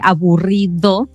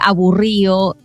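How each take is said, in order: First: The d before the final vowel is pronounced. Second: The d before the final vowel is dropped. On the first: "en vez de aburrido" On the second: "cuando omitimos la letra D entre las vocales"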